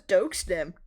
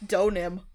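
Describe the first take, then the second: First: An X sound is heard in the middle. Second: No X sound is heard in the middle. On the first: The speaker calls it wrong. "I thought you could hear the X" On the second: The speaker calls it right. "I'll pronounce it right from now on"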